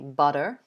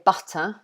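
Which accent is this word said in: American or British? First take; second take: American; British. First: It is said in an American accent. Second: It is said in a British accent. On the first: "in American they would probably say butter" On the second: "We would say butter here"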